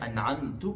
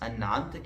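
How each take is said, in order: First: The word ends with an added u vowel. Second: The word ends without a final u vowel. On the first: The speaker calls it wrong. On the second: The speaker calls it right.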